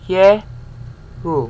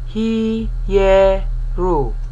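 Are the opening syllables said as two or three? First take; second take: two; three. First: The opening is said as two syllables. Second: The opening is said as three separate syllables. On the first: It follows Hebrew-influenced pronunciation. "Hebraistic pronunciation... it's just two" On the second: It follows classical Greek pronunciation. "If you were a classical Greek person, you would pronounce it as three syllables"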